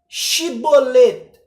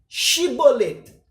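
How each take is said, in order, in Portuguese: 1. A palavra começa com som de 'sh'. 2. A palavra começa com som de 'sh'.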